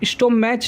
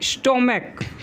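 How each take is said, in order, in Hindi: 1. इस शब्द का अंत ch ध्वनि से होता है। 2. इस शब्द का अंत k ध्वनि से होता है। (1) "स्टोमैच नहीं पढ़ते हैं" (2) "स्टोमैक में हम लोग को पढ़ते हैं"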